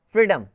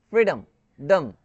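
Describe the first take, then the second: First: फ्रीडम said whole, the ending a quick "dum"; plain full word फ्रीडम; pronunciation demo. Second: फ्रीडम, then डम pulled out alone as a short "dum"; isolated ending. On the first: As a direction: say फ्रीडम once, naturally, as "free-dum". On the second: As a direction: split off डम to show its reduced vowel. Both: Shown as a demonstration. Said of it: "ओ का pronunciation अ".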